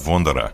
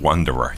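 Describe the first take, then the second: First: The surname is said in its original way. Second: The surname is said in an Americanized way. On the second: "that's the Americanized version"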